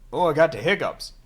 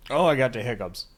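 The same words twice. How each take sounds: First: Hiccupy loud complaint; loud exclaim. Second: Said in the usual way. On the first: Real, not acted. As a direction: blurt it out, hiccuping.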